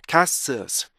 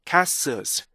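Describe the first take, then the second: No difference in how they are said.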